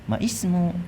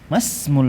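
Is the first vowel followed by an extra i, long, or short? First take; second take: extra i; short. First: An extra 'i' sound follows the first vowel. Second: The first vowel is short and joins the 's'. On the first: The speaker calls it wrong. "Saya enggak baca mais, maismu" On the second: The speaker calls it right. "tapi mas, masmul mudiri"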